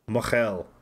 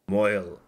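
First: The word is said as two syllables, 'mo-hel'. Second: The word is said as one syllable, 'moyle'.

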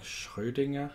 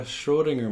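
First: The name is pronounced the German way. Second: The name is pronounced the English way. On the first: The speaker calls it right. "I think they call it like Schrodinger, I think is what a German says" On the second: The speaker calls it wrong. "I'm probably saying it wrong. I'm not German"

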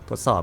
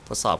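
First: The voice has boosted bass and sounds deep. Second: The voice has boosted treble and sounds bright. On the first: "อยากได้เสียงทุ้มหน่อยนะครับก็เพิ่มเสียงทุ้มก็จะเพิ่มเบสเข้ามานะครับ" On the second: "ใครที่ไม่ชอบเสียงทุ้มก็ปรับไฮขึ้นได้นะครับ"

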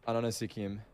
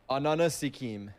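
First: It is said at normal speed. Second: It is said more slowly.

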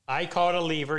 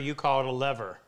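First: Lever is said in a British accent. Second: Lever is said in an American accent.

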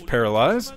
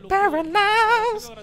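First: It is said in an ordinary speaking voice. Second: It is said in a special put-on voice.

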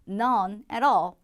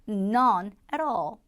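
No difference in how they are said.

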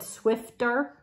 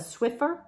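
First: The word has a t sound before the ending. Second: The word has no t sound before the ending. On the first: The speaker calls it wrong. "I think I said Swifter" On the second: The speaker calls it right. "and it's a Swiffer"

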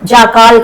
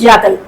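First: The second syllable has a long drawn-out vowel. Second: The second syllable has a short reduced vowel. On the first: The speaker calls it wrong. "జాకాల్ కాదు" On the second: The speaker calls it right.

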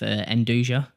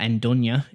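First: The word is said in an English-style way. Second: The word is said in an Italian way.

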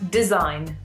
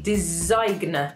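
First: No G sound is pronounced before the n. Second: A hard G sound is pronounced before the n. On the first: The speaker calls it right. "we don't pronounce the G and it becomes design" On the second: The speaker calls it wrong. "If we actually pronounce this word how it's spelled, it would probably be design, but obviously that doesn't sound very good"

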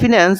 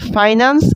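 First: The first syllable has a short 'i' vowel. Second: The first syllable has an 'ai' vowel. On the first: The speaker calls it wrong. "আমাদের বইতে লেখা আছে ফিন্যান্স" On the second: The speaker calls it right. "এইটার main উচ্চারণ হচ্ছে ফাইন্যান্স"

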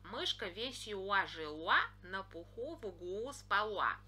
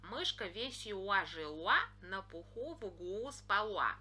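First: L is replaced by a rounded W-like sound. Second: L is replaced by a rounded W-like sound.

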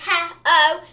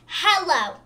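First: The word is said without any L sound. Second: The word is said with a clear L sound. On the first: The speaker calls it wrong. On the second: The speaker calls it right.

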